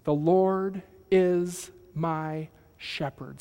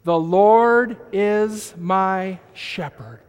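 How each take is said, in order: First: The Lord is my shepherd drawn out slowly at normal level; slow, measured recitation. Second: The Lord is my shepherd, slow and louder, Lord stressed; slow congregational recitation. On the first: Pastor leading the church line by line, slow. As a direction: model the line slowly for the congregation. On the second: Pastor and church reciting together, slow and louder. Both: Shown as a demonstration. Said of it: "Say it with me".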